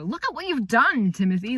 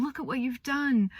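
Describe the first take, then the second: First: Higher, louder mock scolding; scolding parent. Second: Proud praise. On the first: Parent scolding Timothy for stealing, a mock scolding tone. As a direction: tell him off like a cross parent. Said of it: "more of a". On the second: Retold or imitated. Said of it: "she's so proud of him".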